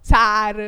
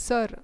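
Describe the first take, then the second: First: "సార్" loud with a long open "aa"; everyday long-vowel saar. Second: "సార్" said as a short "sur"; short sir. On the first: Retold or imitated. Teacher imitating how students normally say it, loud long "saar" for "సార్". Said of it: "మీరు నార్మల్గా". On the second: Shown as a demonstration. Teacher modelling for students, "సార్" with a short "sur" vowel. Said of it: "you will tell sir".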